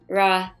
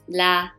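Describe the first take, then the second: First: The consonant is a strong English-style R. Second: The consonant is a light sound between R and L. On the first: The speaker calls it wrong. "Some people want to pronounce like ra ... That's wrong" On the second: The speaker calls it right. "like in the middle of R and L"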